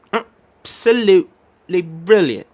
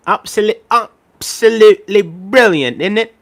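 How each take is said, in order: First: Very slow "Absolutely brilliant" in a put-on British voice, stress on "Absolutely"; British accent. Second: High, slow "absolutely brilliant, isn't it?" in a put-on British voice; British accent. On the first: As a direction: drag it out like a posh Brit. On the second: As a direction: ham up a posh Brit. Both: Shown as a demonstration. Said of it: "saying absolutely in a British accent".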